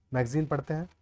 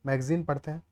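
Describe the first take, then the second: No difference in how they are said.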